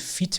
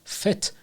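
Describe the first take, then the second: First: The word is said with a Persian-style vowel. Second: The word is said with an English-style vowel. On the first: The speaker calls it wrong. "تو فارسی میگیم فیت میگیم" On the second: The speaker calls it right. "تو انگلیسی فت باید تلفظ بشه"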